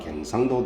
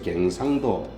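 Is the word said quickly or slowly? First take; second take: quickly; slowly. First: The word is said quickly and slurred. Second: The word is said slowly and carefully.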